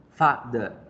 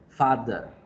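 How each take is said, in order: Both takes have the same delivery.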